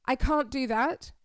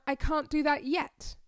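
First: Said in the usual way. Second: Hopeful. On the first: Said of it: "Do you see the difference?". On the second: Shown as a demonstration. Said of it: "I found my voice changed, my intonation changed, I felt more hopeful".

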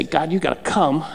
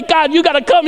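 First: Low, soft plea; subdued quoted prayer. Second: High, insistent plea; urgent mock prayer. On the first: Acted. Preacher quoting a needless prayer to God, subdued delivery. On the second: Preacher imitating a needless prayer to God, urgent mock plea. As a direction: imitate someone begging heaven urgently.

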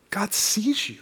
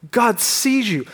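First: Whispered, let it land softly; a hushed whisper of reassurance. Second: Said in the usual way. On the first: Real, not acted. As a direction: breathe the words to the room. Hushed emphasis on key line.

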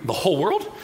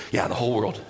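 First: Disbelieving question. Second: Lower, settled reply; Yeah, the whole world, said lower and falling; Jesus calmly reassuring disciples, low answer. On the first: Disciples asking Jesus. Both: Acted.

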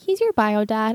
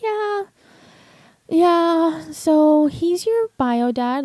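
First: Said in the usual way. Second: High, drawn-out tearful imitation of a confession; imitating tearful crying. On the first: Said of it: "She's like". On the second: Mother admits to daughter who her bio dad is, imitated crying. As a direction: retell it as a slow, high, breaking-down admission. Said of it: "breaking down and crying".

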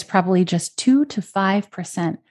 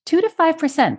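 First: Said in the usual way. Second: Much higher pitch, every word hit hard; incredulous emphasis. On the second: Real, not acted. Host stressing the tiny benefit to listeners, high and incredulous. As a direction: stress on Two to five percent, pitched way up. Host repeats figure in disbelief.

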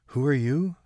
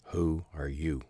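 First: Put-on higher, louder girl's voice, anxious; a startled girl asking who's there; Kate asking. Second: Lightly voiced old man, pointed; stress on who. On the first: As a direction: call down into the dark, uneasy. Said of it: "Kate asked". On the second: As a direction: put the "who are you" back to her, hitting who. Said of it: "that is the wrong question".

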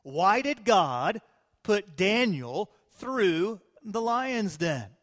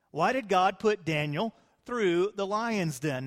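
First: "did" stressed, slow and drawn out; slow emphatic question. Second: Said in the usual way. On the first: Shown as a demonstration. Preacher posing the key question, slow and stressed. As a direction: lean hard on "did", take it slowly. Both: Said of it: "here's a question for you".

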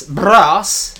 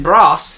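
First: "brass" with the r trilled on the lips, louder; rolled r with the lips. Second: Said in the usual way. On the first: Shown as a demonstration. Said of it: "rolling your R's with your lips rather than your tongue". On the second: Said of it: "rolling your R's with your lips".

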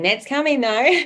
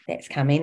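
First: Higher and louder, "coming" punched with glee; playful excited tease. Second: Said in the usual way. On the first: Real, not acted. Host teasing listeners about her coming memoir, loud and playful.

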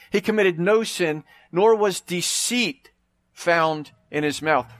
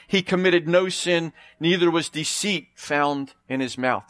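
First: "no" and "nor" leaned on, each phrase slowed; slow stressed reading. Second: Said in the usual way. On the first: Shown as a demonstration. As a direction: drive home "no sin" slowly, word by word. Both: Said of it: "Did you catch that?".

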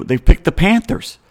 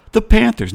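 First: Said in the usual way. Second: High, disbelieving "The Panthers"; incredulous. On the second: Real, not acted. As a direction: echo the name in disbelief.

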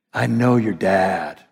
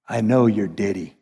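First: Said in the usual way. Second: Low-pitched Southern "Diddy" for daddy; deep Southern accent. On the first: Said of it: "Jesus came to say". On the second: Retold or imitated. Preacher echoes manager as words of Jesus, low Southern accent. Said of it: "he had this deep Southern accent".

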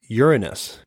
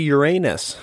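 First: "Uranus" said slowly as YUR-uh-nus; corrected pronunciation. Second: "Uranus" said as your-AY-nus; jokey mispronunciation. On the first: Correcting the planet's name, "Uranus" as YUR-uh-nus. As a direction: stress the first syllable of "Uranus", weak middle vowel. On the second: Making the old planet joke, "Uranus" as your-AY-nus. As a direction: say "Uranus" like "your anus", AY in the middle. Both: Shown as a demonstration. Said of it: "I was pronouncing a s-, one of the planets wrong".

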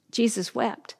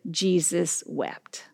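First: Said in the usual way. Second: Jesus wept, said slowly and softly; slowly, quietly, let "Jesus wept" sink in; slow solemn quote. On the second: Shown as a demonstration. Preacher quoting scripture to congregation, slow and soft. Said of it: "Jesus wept, and so should we".

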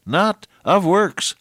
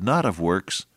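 First: "not of works" much higher, slow and drawn out; emphatic repeat. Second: Said in the usual way. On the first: Shown as a demonstration. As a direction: stretch "not of works" high to drive it home. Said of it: "repeated for emphasis". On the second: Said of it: "first of repeated phrase".

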